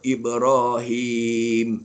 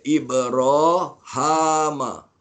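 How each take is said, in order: First: The vowel after the h is 'i'. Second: The vowel after the h is 'a'. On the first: This is the usual reading. "Sama macam kita juga" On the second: This is the variant reading of one reciter. "Bukan hima, dia baca ha, dia baca atas"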